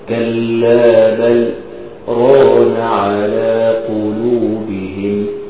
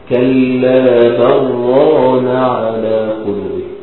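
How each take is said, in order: First: A brief pause separates bal from ran. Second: Bal merges straight into ran without pause. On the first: The speaker calls it right. "أنت بتعمل سكتة لطيفة كده" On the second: The speaker calls it wrong. "ليه ما بقولش كلا بران على قلوبه"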